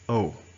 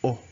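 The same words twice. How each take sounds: First: The letter is pronounced the English way. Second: The letter is pronounced the French way. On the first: "In English, this letter is pronounced as O" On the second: "Similar to French, say O"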